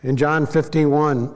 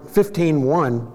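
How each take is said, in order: First: Said in the usual way. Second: "fifteen one" repeated slowly and distinctly; slow clarifying repeat. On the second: Shown as a demonstration. Preacher repeating the verse number for the congregation, slow and clear. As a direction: spell out "fifteen one" so they catch it.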